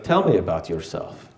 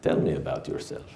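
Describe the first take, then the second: First: Said in the usual way. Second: Put-on low, soft, seductive Middle Eastern accent; sexy Middle Eastern accent. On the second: Aziza on the phone asking him, low soft Middle Eastern accent. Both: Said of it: "in that sexy Middle Eastern accent".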